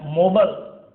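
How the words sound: It is said in an American accent.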